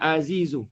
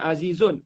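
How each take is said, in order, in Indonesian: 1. Kata ini berakhir dengan vokal, tanpa n. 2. Kata ini berakhir dengan bunyi n. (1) "kena baca azizu. Itu kerana darurah syair" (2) "dia tak boleh baca azizun"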